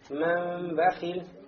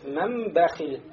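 First: The m is made with a slight lip gap. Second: The m is made with lips fully closed. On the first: The speaker calls it wrong. "Не оставляем фурчу, как делают, да, некоторые чтецы" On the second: The speaker calls it right. "мы смыкаем две губы"

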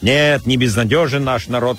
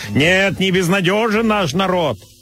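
First: It imitates a comedian's own speaking voice. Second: It imitates a parody of that same voice. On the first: "как говорит Михаил Задорнов своим голосом" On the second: "Голосом Галкина, который его пародирует"

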